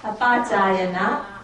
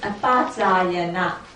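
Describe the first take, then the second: The two takes are said the same way.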